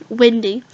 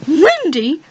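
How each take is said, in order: First: Said in the usual way. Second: "Wendy?" asked with a high, rising, doubtful lilt; "Wendy?" pitched up and drawn into a query; puzzled question. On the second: Real, not acted. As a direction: question the name "Wendy?" as if unsure it's right. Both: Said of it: "Okay, sorry".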